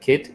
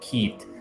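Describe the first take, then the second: First: The vowel is short and plain. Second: The vowel is dragged out long. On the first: This is the usual way. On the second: This is the rural Irish way.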